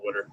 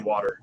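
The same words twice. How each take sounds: First: It is said the Philadelphia way, like 'wooder'. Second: It is said with a general American pronunciation. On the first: This is how the speaker does not say it. "so I don't say water" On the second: This is how the speaker normally says it. "I say water"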